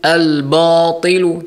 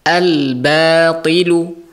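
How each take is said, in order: First: The 'b' sound is thick and heavy. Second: The 'b' sound is thin and light. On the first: The speaker calls it wrong. "Jadi tidak ditebalkan" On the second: The speaker calls it right. "Jadi tetap ditipiskan"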